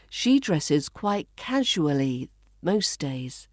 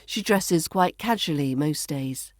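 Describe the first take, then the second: First: Slow, spaced reading with "casually" as KAZH-oo-uh-lee; "casually" slowly said in full; full pronunciation. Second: Connected reading with "casually" as KAZH-uh-lee; "casually" shortened, flowing straight on; reduced pronunciation. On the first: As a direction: give "casually" all four syllables, pausing between phrases. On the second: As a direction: run it together, "casually" in three syllables. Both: Shown as a demonstration. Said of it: "we reduce this to".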